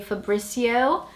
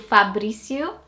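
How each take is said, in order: First: The name is said with an English pronunciation. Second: The name is said with a Portuguese pronunciation. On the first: "in English-speaking countries, you'd probably say Fabrizio" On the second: "Slightly different to"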